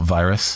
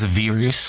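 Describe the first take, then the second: First: It is said with the usual English pronunciation. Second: It is said with a Japanese-style pronunciation. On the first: "not virus" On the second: "the way that the uh, the like Japanese narrator pronounces it"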